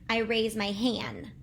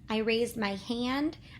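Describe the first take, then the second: First: The final D sound is left out. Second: The final D sound is pronounced. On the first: The speaker calls it wrong. "they don't say the D" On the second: The speaker calls it right. "instead of saying hand"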